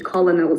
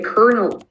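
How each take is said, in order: First: The word sounds like 'ko-lo-nel', with an L. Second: The word sounds like 'kernel', with an R. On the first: The speaker calls it wrong. "not a colonel" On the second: The speaker calls it right. "that would be a colonel"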